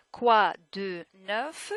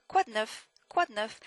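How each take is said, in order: First: "Quoi de neuf" one word at a time; louder, drawn-out "Quoi de neuf"; slow, separated words. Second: "quoi de neuf" run together as kwad-nuf; "quoi de neuf" with the "de" squeezed short; words linked together. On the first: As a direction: spell out "Quoi de neuf" slowly with a full "de". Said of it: "It's not fast, it's just that French people do not slow down". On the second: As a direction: link "quoi de neuf" in one quick unit. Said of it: "They try to, to link them together". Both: Shown as a demonstration.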